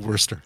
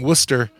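First: The word is said with an R sound. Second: The word is said without an R sound. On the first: "we pronounce the R" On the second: "they don't pronounce the R"

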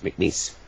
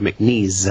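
First: The last syllable rhymes with lease. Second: The last syllable does not rhyme with lease. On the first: The speaker calls it right. "it's like lease, grease, piece, McNeese" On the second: The speaker calls it wrong. "sometimes people go McNeese"

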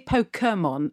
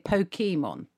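First: The 'e' sound is light and reduced. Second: The 'e' sound is full and clearly pronounced. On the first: This is how the speaker's own group says it. "we say Pokemon" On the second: This is how the listener's group says it. "you say Pokemon"

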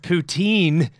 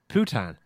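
First: The stress is on the second syllable. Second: The stress is on the first syllable. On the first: The speaker calls it right. "Stress on the second syllable" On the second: The speaker calls it wrong. "I called it"

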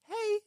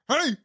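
First: It is said in a high, girlish voice. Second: It is said in a deep, aggressive voice.

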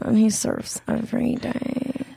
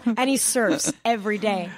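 First: The voice is spoken with a creaky fry. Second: The voice is spoken without creak.

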